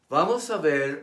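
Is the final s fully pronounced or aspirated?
full. The final s is fully pronounced.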